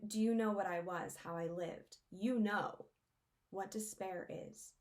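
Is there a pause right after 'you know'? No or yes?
yes. There is a pause after "you know".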